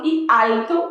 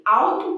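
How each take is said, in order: First: Alto with a clear L, alto; clear Spanish L. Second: Alto with the L as U, awtu; Portuguese U sound. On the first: Teacher says Spanish alto with clear L, meaning height. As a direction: say alto with the tongue on the L. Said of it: "que é de altitude". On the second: Teacher says the Portuguese awtu, meaning car. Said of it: "que pode ser um carro". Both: Shown as a demonstration.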